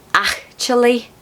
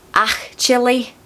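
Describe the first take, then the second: The two takes are said the same way.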